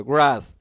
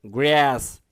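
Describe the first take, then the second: First: গ্রাস with an open "ah", "graas"; "aa" vowel. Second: গ্রাস with a flat "æ", "græs"; "ae" vowel. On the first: Teacher contrasts the vowels, গ্রাস with aa as in "graas". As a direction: say গ্রাস with a long aa. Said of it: "আস উচ্চারণ হবে". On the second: Teacher contrasts the vowels, গ্রাস with æ as in "græs". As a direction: say গ্রাস with a long æ. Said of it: "আর এ উচ্চারণ হবে". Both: Shown as a demonstration.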